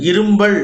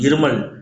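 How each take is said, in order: First: The middle has an added mb sound. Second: The middle has a plain m sound. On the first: The speaker calls it wrong. "இரும்பல் அப்படின்னு சொல்லக்கூடாது" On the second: The speaker calls it right. "இருமல் அப்படின்னு சொல்லணும்"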